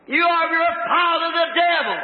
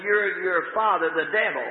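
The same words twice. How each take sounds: First: High, loud accusation; thundering denunciation. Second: Said in the usual way. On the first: Acted. Jesus rebuking scholars and priests, thundering denunciation. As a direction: denounce them at raised pitch and volume.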